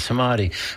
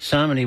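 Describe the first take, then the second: First: The stress is on the middle syllable. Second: The stress is not on the middle syllable. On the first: The speaker calls it right. "It's the middle syllable. That's the emphasized one" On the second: The speaker calls it wrong. "which I think I keep mispronouncing"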